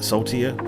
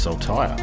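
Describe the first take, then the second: First: The word ends with a 'teer' sound. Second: The word ends with a 'tire' sound. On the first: The speaker calls it wrong. "I was pronouncing it saltier" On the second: The speaker calls it right. "I would never have thought to pronounce it as saltire"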